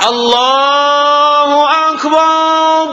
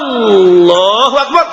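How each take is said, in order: First: The final bar syllable is stretched out long. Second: The opening A sound is stretched out long. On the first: "Ada yang panjangkan bar" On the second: "Ada yang panjang A"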